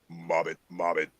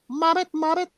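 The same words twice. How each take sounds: First: It is said in a Lazy Eye Frog voice. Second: It is said in a Mama Frog voice.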